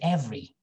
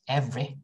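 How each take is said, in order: First: The final vowel is held slightly longer. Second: The final vowel is clipped short. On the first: The speaker calls it right. "It's just a little bit long" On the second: The speaker calls it wrong. "we don't say every"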